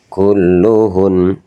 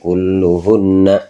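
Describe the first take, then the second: First: The word ends on a stopped, held n. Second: The word ends with a full final vowel. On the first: The speaker calls it right. "tapi kulluhun" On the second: The speaker calls it wrong. "kalau dibaca waqaf nggak boleh kulluhunna"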